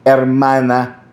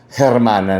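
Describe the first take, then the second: First: The word begins without an H sound. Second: The word begins with an audible H sound. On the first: The speaker calls it right. "Hermana without an H, which is the correct pronunciation" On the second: The speaker calls it wrong. "nung tumagal, Hermana na"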